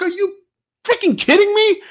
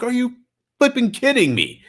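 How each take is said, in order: First: Much higher, incredulous, disgusted; retold outrage at a coughing shopper; exasperated disbelief. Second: Half-laughing can't-believe-it; retelling the moment again with a grin; incredulous. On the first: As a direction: throw it at her like you can't believe it. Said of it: "I looked at her like". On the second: Retold or imitated. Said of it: "I'm like".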